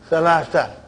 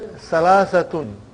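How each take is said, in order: First: The word ends in a bare -a vowel. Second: The word ends with a full -tun ending. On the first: "But you will always hear the word Salasa" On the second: "And then Salasatun"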